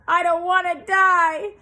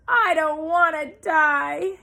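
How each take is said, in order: First: High, very loud scream. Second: Slow, loud, high moan. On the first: Pig screams on the ground at the sheep, high and very loud. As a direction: throw himself down screaming. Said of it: "screamed Wilbur". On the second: Pig moans as he bursts into tears, high, loud and slow. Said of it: "he moaned". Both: A narrator's reading.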